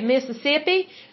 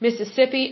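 First: It is said in a local Mississippi accent. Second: It is said in a neutral general accent.

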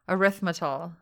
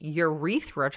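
First: The word begins with a sound like "arithmetic". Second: The word begins with a sound like "urethra". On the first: The speaker calls it right. "Like arithmetic" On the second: The speaker calls it wrong. "It's not going to be urethra"

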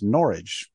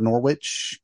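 First: It rhymes with porridge, with no w sound. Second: The middle w is pronounced as spelled. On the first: The speaker calls it right. "I was told it's pronounced like it's porridge" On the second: The speaker calls it wrong. "when you see it spelled Norwich, it is not Norwich"

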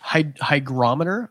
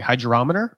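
First: The G is pronounced hard, as in 'go'. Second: The G is pronounced soft, like a J. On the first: The speaker calls it right. "I have to learn how to pronounce it correctly" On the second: The speaker calls it wrong. "a G can make a J sound like hydrometer"

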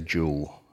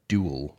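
First: It is said in a British accent. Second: It is said in an American accent.

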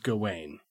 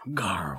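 First: The name is said without an R-like sound. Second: The name is said with an R-like sound. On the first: "I have always read it in my head as Gawain" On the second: "they kind of pronounce it with almost like with an R"

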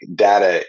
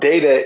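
First: The first vowel sounds like 'dah'. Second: The first vowel sounds like 'day'. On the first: It sounds like what a baby calls a parent. "what your baby called you when you were little" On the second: It names the character from Star Trek. "data is the character from Star Trek"

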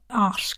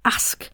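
First: The vowel is long, Home Counties style. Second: The vowel is short and sharp, Liverpool style. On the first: "like they speak in the home counties" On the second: "a short, sharp ah sound for ask"

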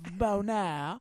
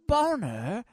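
First: The second syllable sounds like 'air'. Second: The second syllable sounds like 'er'. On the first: A refined, classical stage name. "my classically Shakespearean name of Bonair" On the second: A crude joke name. "we'll pronounce it Boner, like the erect throbbing member of a man"

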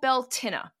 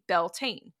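First: The word ends with a 'tinna' sound. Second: The word ends with a 'tane' sound. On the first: This is the traditional way to say it. "It's called Beltinna" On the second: This is the common modern way to say it. "we usually just pronounce it phonetically nowadays"

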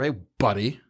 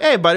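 First: The greeting sounds disrespectful and nasty. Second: The greeting sounds warm and friendly. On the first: The speaker does not care for the person. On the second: The speaker is glad to see the person.

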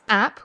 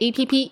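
First: It is said as one short syllable. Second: It is spelled out as three letters. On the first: The speaker calls it wrong. "Don't generally say it as app" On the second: The speaker calls it right. "we say APP"

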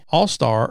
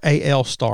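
First: The first part is said as the word all. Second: The first part is said as two letters. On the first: "Nobody really knows how you say that" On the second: "The letters AL and then Star"

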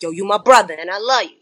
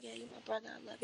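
First: It sounds strong and full of conviction. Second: It sounds weak and unconvincing, like a punk.

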